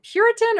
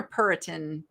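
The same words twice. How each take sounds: First: Puritan starting with a y-glide, PYUR-i-tan; first pronunciation option. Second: Puritan without the y-glide, PUR-i-tan; second pronunciation option. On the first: Seller unsure of the pottery name, Puritan as PYUR-i-tan. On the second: Seller offers the other reading, Puritan as PUR-i-tan. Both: Shown as a demonstration. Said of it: "however you say that".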